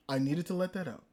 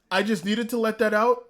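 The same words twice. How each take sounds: First: Low, soft repeat to oneself; quiet wind-down. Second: Said in the usual way. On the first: Real, not acted. Fan coming down after his rant, quiet. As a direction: drop the voice and settle.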